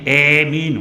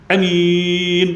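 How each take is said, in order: First: The long vowel is tilted toward an e sound. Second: The first vowel is kept short. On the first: This should not be read. "imalah pada huruf alif dan takhfif huruf mim" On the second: This is valid but uncommon. "bacaan qasar. Qasar ni pendek lah"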